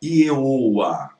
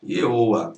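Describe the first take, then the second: First: Ieoa repeated as the error, a bit louder; Ieoa, stressed to show it is wrong; mock wrong pronunciation. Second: Ieoa said as the mistaken reading, no h; Ieoa, the wrong version; wrong pronunciation. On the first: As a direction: hold up Ieoa as the mistake. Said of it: "Por que a pronúncia não é Ieoa?". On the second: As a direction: quote the error Ieoa without any h. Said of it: "A pronúncia não é Ieoa". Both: Shown as a demonstration.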